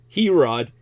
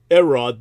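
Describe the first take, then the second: First: The word begins with an audible H sound. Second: The word begins with a vowel, without H. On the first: The speaker calls it wrong. "Herods is what you um, Anglo uh, jive people would uh, vulgarize it as" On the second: The speaker calls it right. "to use the correct pronunciation"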